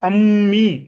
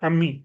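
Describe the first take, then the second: First: The m sound is held full and distinct. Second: The m sound is shortened and barely heard. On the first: The speaker calls it wrong. "அம்மி என்று நாங்கள் சொல்றதில்ல" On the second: The speaker calls it right. "சாதாரண வாழ்க்கையில நாங்கள் அப்படி சொல்றோம்ல"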